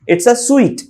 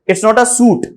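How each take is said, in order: First: The last word sounds like 'sweet'. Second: The last word sounds like 'suit'. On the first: The speaker calls it right. "जैसे हम कोई मिठाई नहीं खाते" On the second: The speaker calls it wrong. "सूट नहीं पढ़ते"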